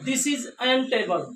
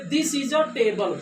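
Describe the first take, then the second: First: "an" stressed, spoken very slowly to show the error; wrong form said slow and pointed. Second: "a" slow and clear before table; right form. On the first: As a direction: drag out the wrong "an table". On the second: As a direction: model the correct "a table". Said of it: "not this is an table". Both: Shown as a demonstration.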